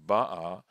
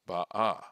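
First: The stress is on the first syllable. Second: The stress is on the last syllable. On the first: The action is completed, in the past. "the accent falls on the beit" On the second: The action is still in progress. "as opposed to"

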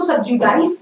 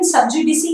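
First: The word ends with an 'eyes' sound. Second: The word ends with a 'see' sound. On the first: "कुछ लोग इसको सबजुडाइज भी बोलते हैं, वो भी ठीक है" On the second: "सबजुडिसी is the right pronunciation"

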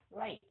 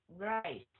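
First: The lips are rounded for the first sound. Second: The teeth are clenched for the first sound. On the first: The speaker calls it right. "mình chú miệng" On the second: The speaker calls it wrong. "Cái này là cắn răng"

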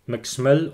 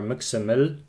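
First: The middle consonants are said together. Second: A short vowel separates the middle consonants. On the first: "words with clusters" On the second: "without clusters, but with the letter ø"

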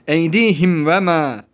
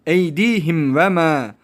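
No difference in how they are said.

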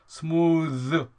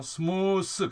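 First: The final th is voiced. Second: The final th is voiceless. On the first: The speaker calls it right. "smooth 그래야 돼요" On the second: The speaker calls it wrong. "smooth 그러면 안 돼요"

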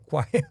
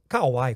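First: The name is said quickly as one syllable. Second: The name is drawn out over several syllables. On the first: This is how it should be said. The speaker calls it right. "É Quai que a gente fala" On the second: This is how it used to be said. The speaker calls it wrong. "Eu falava era Kauai"

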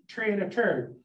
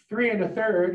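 First: It is said Newfoundland-style, TH said as T. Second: It is said with standard English TH sounds.

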